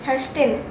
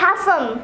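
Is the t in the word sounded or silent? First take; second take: sounded; silent. First: The t sound is pronounced in the word. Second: The t sound is silent in the word. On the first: The speaker calls it wrong. "Shit, damn it" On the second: The speaker calls it right. "It'll be hasten"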